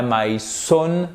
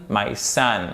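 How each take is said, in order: First: "son" mispronounced with an O, like French "sonne"; wrong vowel. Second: "son" pronounced like "sun"; correct vowel. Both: Shown as a demonstration. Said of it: "Et pas my son".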